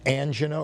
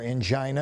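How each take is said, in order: First: "angina" stressed on the first syllable; "angina" with a short i, AN-jih-nuh. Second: "angina" stressed on the middle syllable; "angina" with its middle rhyming with "eye"; angina as an-JY-nuh. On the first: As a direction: say "angina" as AN-jin-uh, short middle vowel. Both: Shown as a demonstration. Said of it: "as some people call it".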